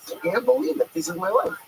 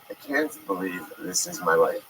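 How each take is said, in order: First: It sounds excited and thrilled. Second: It sounds dismayed and unhappy.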